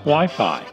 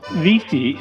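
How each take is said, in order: First: The word sounds like why-fye. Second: The word sounds like vee-fee.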